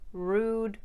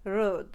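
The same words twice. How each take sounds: First: The vowel is a tight oo sound. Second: The vowel is widened to an uh sound.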